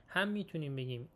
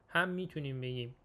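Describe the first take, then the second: No difference in how they are said.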